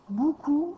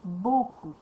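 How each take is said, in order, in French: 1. La première syllabe a une voyelle 'oo'. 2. La première syllabe a une voyelle 'oh'. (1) "des gens qui prononcent pas bien le mot beaucoup ... c'est pas bou" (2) "c'est beau"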